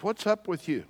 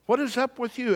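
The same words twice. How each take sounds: First: Higher, puzzled complaint, held back in volume; mildly exasperated king questioning his servant; mock exasperation. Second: Very high-pitched, incredulous question; hammed-up baffled king at wit's end; escalated mock exasperation. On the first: Acted king confronting ever-positive servant. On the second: Acted king's repeated, escalated question.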